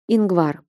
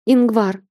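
First: Said in the usual way. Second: Calling out. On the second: A narrator's reading. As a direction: cry his name out. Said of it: "отчаянно взвыв".

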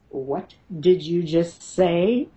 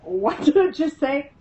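First: Slow, deliberate mother-bear challenge. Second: High-pitched incredulous son; startled son. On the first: Mother confronts the voice threatening her son, slow and protective. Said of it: "My mother bear comes out". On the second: Son on the bed questions what he heard, high and startled. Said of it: "Brandon's going". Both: Retold or imitated.

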